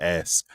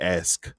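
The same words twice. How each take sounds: First: The k sound comes before the s. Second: The s sound comes before the k. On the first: The speaker calls it wrong. "instead of ask" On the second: The speaker calls it right. "I gotta make sure make sure I say ask"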